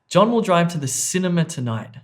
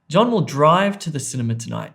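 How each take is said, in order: First: The stress falls on the word cinema. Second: The stress falls on the word drive. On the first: He is going to this place, not another one. "not to the restaurant" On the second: He will go by car rather than on foot. "not walk"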